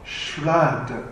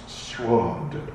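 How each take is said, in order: First: The vowel is an open 'a' sound. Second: The vowel sounds like 'o', Bengali style.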